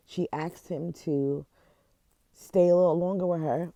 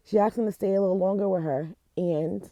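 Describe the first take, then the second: First: Fighting back tears as the story hits; tearful. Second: Higher, louder and fast, pushing the words out through tears; real tears, rushing on to get it said; crying through it. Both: Real, not acted. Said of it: "I don't know why I'm crying".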